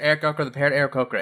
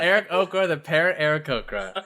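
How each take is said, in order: First: It is said very quickly. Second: It is said at a normal pace.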